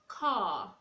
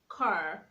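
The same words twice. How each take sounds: First: The final R sound is silent. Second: The final R sound is pronounced. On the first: The speaker calls it right. "rather you say car" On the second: The speaker calls it wrong. "You don't say car"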